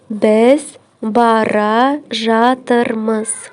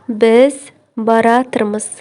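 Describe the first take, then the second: First: All syllables of both verbs are fully pronounced. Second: The two verbs merge into one shortened word.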